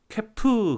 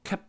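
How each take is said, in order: First: The final p is audibly released. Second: The final p is held without release. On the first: The speaker calls it wrong. "캐프 그러지 않고" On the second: The speaker calls it right. "캡 하고 딱 릴리스를 안 하죠"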